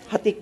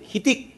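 First: The first syllable has the vowel 'a'. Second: The first syllable has the vowel 'i'. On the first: The speaker calls it wrong. "Hitik pala" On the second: The speaker calls it right. "Hitik pala, hitik"

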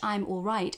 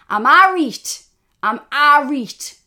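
First: It is said in a standard southern English accent. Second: It is said in a northeast English Geordie accent. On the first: "in standard received pronunciation English" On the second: "we say"

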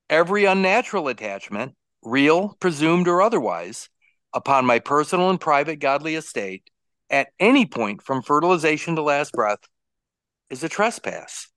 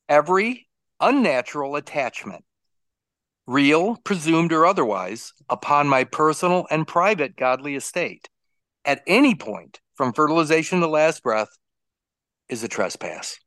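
First: It is read at a faster pace. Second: It is read at a slower pace.

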